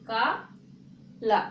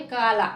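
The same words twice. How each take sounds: First: काला stretched very slowly, each syllable apart; slow and careful. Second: Said in the usual way. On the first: Shown as a demonstration. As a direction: draw काला out slowly for the class. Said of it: "धीरे से बोल रहे". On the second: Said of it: "इसमें ये जोर नहीं लगता है".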